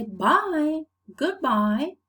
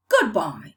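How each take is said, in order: First: "bye, goodbye" ending on a rise; usual English goodbye tune. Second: "goodbye" louder, with a firm fall; dismissive falling tune on "goodbye"; firing-someone falling goodbye. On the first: Teacher showing the usual English farewell, rising at the end. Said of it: "But usually we say". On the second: Teacher showing how you fire someone, falling goodbye. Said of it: "if you are firing someone". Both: Shown as a demonstration.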